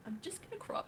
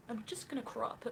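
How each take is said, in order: First: Very high put-on voice; exaggerated high-pitched caricature; mocking impersonation. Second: Higher put-on voice; lightly pitched-up caricature of another streamer; first go at a mocking high voice; mocking impersonation. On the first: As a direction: squeak it out in a mock streamer voice. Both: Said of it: "I can't do it anymore".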